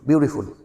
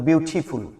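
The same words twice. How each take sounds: First: It is said in an American accent. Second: It is said in a British accent.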